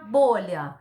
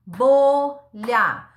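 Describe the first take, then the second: First: Said in the usual way. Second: "Bolha" loud, split into BO, pause, LHA; sílaba por sílaba. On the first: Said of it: "Da palavra". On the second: Shown as a demonstration. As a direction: say "Bolha" out loud in two separate syllables. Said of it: "falando em voz alta, pausadamente". ("Bolha" em voz alta, pausadamente, BO e LHA)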